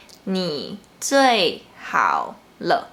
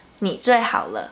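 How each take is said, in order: First: "你最好了" slow, word by word, "你" and "好" low and dipping; low third tones. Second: "你最好了" quicker, as one joined phrase; natural speed. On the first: Teacher models third tone for learners, slow and separated. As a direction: spell out "你最好了" slowly, with low falling "你" and "好". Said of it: "start from a low pitch and then go down a bit". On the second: Teacher repeats the example for learners, joined up and quicker. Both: Shown as a demonstration.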